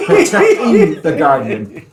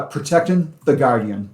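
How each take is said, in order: First: "Protecting" said slowly, clear final ing sound; careful ing. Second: Boston accent, Protectin with the g dropped; casual Boston accent, clipped ing. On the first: Shown as a demonstration. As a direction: spell out "Protecting" with a full ng, laughing. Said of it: "ing, protecting is my Boston accent". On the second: Real, not acted. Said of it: "protecting is my Boston accent".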